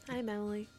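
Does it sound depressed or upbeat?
depressed. It sounds flat and depressed.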